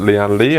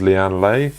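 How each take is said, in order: First: "Lian Li" with the last word said "lee"; Lee pronunciation. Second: "Lian Lei" with the last word said "lay"; Lay pronunciation. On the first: Reviewer showing viewers one way to say the brand, "Li" as "lee". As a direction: say "Li" in "Lian Li" to rhyme with see. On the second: Reviewer showing viewers the other way to say the brand, "Lei" as "lay". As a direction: say "Lei" in "Lian Lei" to rhyme with day. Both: Shown as a demonstration. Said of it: "some people might pronounce it".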